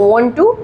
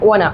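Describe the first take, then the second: First: Both words are said fully and separately. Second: The words blend into one reduced word.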